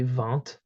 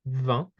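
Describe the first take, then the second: First: The word ends with an audible T sound. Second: The word ends without a T sound. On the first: This is how it is said in Belgium. "where we hear the T" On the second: This is the general French pronunciation. "the T is silent"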